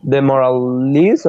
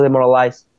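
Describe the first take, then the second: First: DEMORALIZE ending in a long "ee" sound; last syllable as "leez". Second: DEMORALIZE ending in an "eye" sound; last syllable as "lice". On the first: Learner offers one possible pronunciation, ending in "leez". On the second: Learner offers the other pronunciation to check, ending in "lice". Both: Shown as a demonstration.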